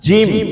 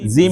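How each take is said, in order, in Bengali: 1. jim ধ্বনিটি শক্ত করে বলা হয়। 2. jim ধ্বনিটি নরম করে বলা হয়। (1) "জিম শক্ত করে" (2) "এখানে অনেকে বলেন জিম, জিম না"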